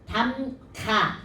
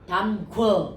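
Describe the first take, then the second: First: The word ends with a plain 'a' vowel. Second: The word ends with a 'wo' vowel sound. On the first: The speaker calls it right. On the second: The speaker calls it wrong.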